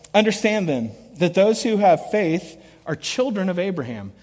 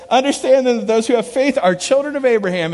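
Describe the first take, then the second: First: Said in the usual way. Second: A touch higher and louder, eager; buddy reading the verse eagerly; excited reading. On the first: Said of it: "here he goes". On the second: Retold or imitated. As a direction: read it as a discovery. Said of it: "Look, it's right there".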